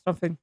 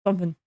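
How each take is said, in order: Both takes have the same delivery.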